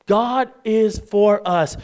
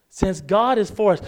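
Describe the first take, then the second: First: "God is for us" slowly, each word weighted; emphatic repetition. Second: Said in the usual way. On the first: Real, not acted. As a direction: drive home "God is for us" word by word. Repeats the phrase slowly for emphasis.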